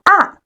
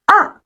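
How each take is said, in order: The two takes are said the same way.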